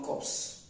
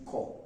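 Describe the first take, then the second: First: The word ends with P and S sounds. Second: The word ends without P and S sounds. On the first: The speaker calls it wrong. "not corpse" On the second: The speaker calls it right. "The P and S, the two of them are silent"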